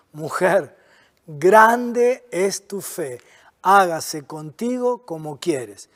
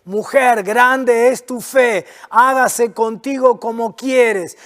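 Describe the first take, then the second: First: Lower, softer, very slow and gentle; tender. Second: Slow, firm, full-voiced declaration; emphatic. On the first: Acted. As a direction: speak it gently like a blessing. Jesus answers the woman tenderly. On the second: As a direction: proclaim each word to drive it home. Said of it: "No sé si te diste cuenta lo que Jesús le dice".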